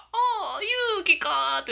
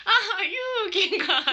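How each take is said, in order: First: Put-on a higher, drawn-out old man's voice, lightly done; a hint of the grandpa, recognising his granddaughter's name; mock grandpa on the phone. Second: Put-on slow, higher old man's voice with a laugh in it; mock grandpa on the phone. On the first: Granddaughter imitates grandpa answering her call, lightly voiced old man. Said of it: "って言って、ブーブーブーって". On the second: Granddaughter retells grandpa's daily call, slow, laughing old man voice. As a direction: stretch it out like the old man, amused. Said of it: "ブーブーって".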